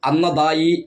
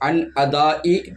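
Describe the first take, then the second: First: The n runs straight into the following vowel. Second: A glottal stop separates the n from the vowel. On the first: The speaker calls it wrong. "എന്നൊരിക്കലും തന്നെ പറയാൻ പാടില്ല" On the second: The speaker calls it right. "നൂനിന് ശേഷം ഹംസയാണ്"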